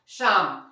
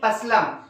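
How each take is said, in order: First: The p and l sounds are silent. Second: The p and l sounds are pronounced. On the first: The speaker calls it right. "इसे हम लोग पढ़ेंगे क्या, शाम" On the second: The speaker calls it wrong. "यदि आप इसे तोड़कर पढ़ेंगे"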